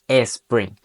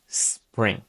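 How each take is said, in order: First: It begins with an added vowel before the s. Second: It begins directly with a hissing s sound. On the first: The speaker calls it wrong. "no tendremos que decir spring" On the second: The speaker calls it right. "simplemente tendremos que decir spring"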